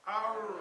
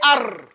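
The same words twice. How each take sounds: First: The r vibrates softly without a hard tongue tap. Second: The r is a hard trill with tongue taps. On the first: The speaker calls it right. "Say arr" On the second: The speaker calls it wrong. "Don't say arr"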